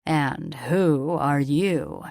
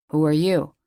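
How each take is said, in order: First: Slow, lingering, oily question with a leer; sleazy drawl. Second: Gruff uncle demanding. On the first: Richter leering at Ilea, slow sleazy drawl. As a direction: stretch every word out like a creep sizing her up. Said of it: "he asked in a sleazy drawl". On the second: Uncle confronts stranger. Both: A narrator's reading.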